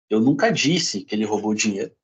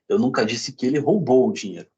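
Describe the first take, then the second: First: The stress falls on the word disse. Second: The stress falls on the word roubou. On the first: It may have been written, not said. "posso ter escrito" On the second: It may have been borrowed instead. "Pode ter pego emprestado"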